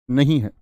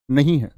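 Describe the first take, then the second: No difference in how they are said.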